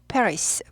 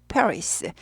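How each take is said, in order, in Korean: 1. 이 단어는 s 소리로 끝나요. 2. 이 단어는 s 소리로 끝나요.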